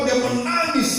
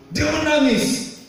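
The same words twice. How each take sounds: First: Said in the usual way. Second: Drawn-out preacher's shout; emphatic shout. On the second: Acted. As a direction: drag it out and shout it to the congregation. Preacher dramatizes Hezekiah's weeping.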